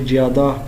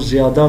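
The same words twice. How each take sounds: First: The word begins with a j sound. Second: The word begins with a z sound. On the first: This is the Hindi way of saying it. "तो वो कहेंगे ज़्यादा" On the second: This is the Urdu way of saying it. "जैसे अगर मैं लफ्ज़ बोल रहा हूँ ज़्यादा"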